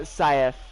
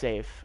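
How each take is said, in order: First: The name sounds like sigh-ef. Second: The name sounds like the word safe. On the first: The speaker calls it wrong. "Am I pronouncing it right? I'm sorry if I'm not" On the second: The speaker calls it right. "Okay, it's just safe"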